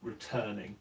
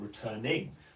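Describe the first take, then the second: First: The stress is on the second syllable. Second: The stress is on a syllable other than the second. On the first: The speaker calls it right. "stress the second syllable of the word returning" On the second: The speaker calls it wrong. "We don't say returning"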